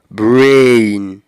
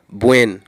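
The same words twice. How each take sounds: First: The vowel is a long gliding diphthong. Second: The vowel is a plain single vowel. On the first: The speaker calls it right. "j'ai un son voyelle long, diphtongue" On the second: The speaker calls it wrong. "Yo toujours prononcé comme brain"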